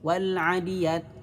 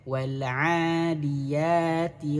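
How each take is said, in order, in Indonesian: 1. Vokal setelah 'wal' pendek. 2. Vokal setelah 'wal' dibaca panjang. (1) "jangan sampai nggak panjang di sini. Wal'adiyat tidak" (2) "Tapi wal'a panjangkan dua harokat"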